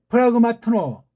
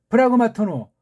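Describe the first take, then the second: The two takes are said the same way.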